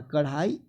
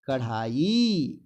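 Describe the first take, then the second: First: कढ़ाई with a short, quick ending; कढ़ाई shown as the mistake; wrong pronunciation. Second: कढ़ाई drawn out with a long final ee; lingering "kadhaa-yee" for कढ़ाई; correct pronunciation. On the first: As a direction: clip the final i of कढ़ाई. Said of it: "बड़ी की मात्रा". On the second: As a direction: slowly stretch the last vowel of कढ़ाई. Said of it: "बड़ी की मात्रा होता है". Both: Shown as a demonstration.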